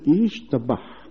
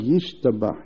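First: It starts with 'ish', with no initial y sound. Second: It starts with 'yish', with a clear initial y sound. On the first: It sounds like 'a man, a cook'. The speaker calls it wrong. "שלא ישמע, כאילו אומר" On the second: It means 'may it be praised'. The speaker calls it right. "אלא ישתבח, יעשה ביוד"

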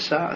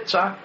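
First: The consonant is pronounced as s. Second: The consonant is pronounced as ts. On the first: The speaker calls it wrong. "אבל לא תעשה סע, סמך" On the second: The speaker calls it right. "תעשה צע, שיהיה שונה מאחר"

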